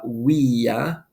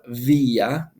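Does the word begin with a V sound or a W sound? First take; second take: W sound; V sound. First: The word begins with a W sound. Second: The word begins with a V sound.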